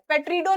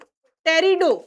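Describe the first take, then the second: First: The word begins with an audible P sound. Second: The word begins with a T sound, no P. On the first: The speaker calls it wrong. "पेट्रिडो नहीं पढ़ देना" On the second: The speaker calls it right. "पी यहां silent है"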